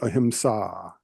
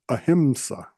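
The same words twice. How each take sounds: First: The 'a' vowel is long. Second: The 'a' vowel is short. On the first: The speaker calls it right. "It's actually ahimsa. The there's the long A, which gives you a little longer duration" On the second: The speaker calls it wrong. "We've heard it many times as"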